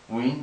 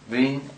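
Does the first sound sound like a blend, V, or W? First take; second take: W; V. First: The word begins with a plain W sound. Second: The word begins with a plain V sound. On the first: "If you pronounce it as a straight W" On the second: "If you pronounce it as the V"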